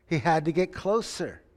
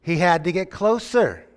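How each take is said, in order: First: Said in the usual way. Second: Louder, hitting closer; emphatic. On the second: Real, not acted. Preacher driving home the point to the congregation, louder and emphatic. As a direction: preach it out strong.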